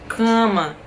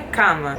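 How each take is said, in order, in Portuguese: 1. A primeira vogal soa nasal, como 'an'. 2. A primeira vogal é oral, não nasal. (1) "Em português é mais tipo cama, cama. Esse A com an" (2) "Em espanhol é cama"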